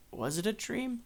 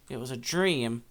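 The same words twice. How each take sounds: First: Soft, high, rising wonder; wondering question. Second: Said in the usual way. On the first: Retold or imitated. Old man seeing food prepared for him, softly wondering. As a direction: lift it into a puzzled question.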